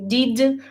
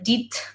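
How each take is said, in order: First: The final consonant is a voiced d sound. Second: The final consonant is a voiceless t sound. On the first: The speaker calls it right. "so I started to say did" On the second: The speaker calls it wrong. "replaced um, the voiced uh, consonant with a voiceless"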